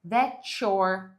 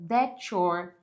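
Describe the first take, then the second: First: The T and Y merge into a ch sound. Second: The same.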